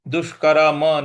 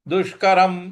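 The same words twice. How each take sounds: First: The final m is followed by a vowel. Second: The final m ends with no vowel. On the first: The speaker calls it wrong. "इसलिए दुष्करम नहीं बोलना है" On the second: The speaker calls it right. "दुष्करम इस प्रकार से बोलेंगे"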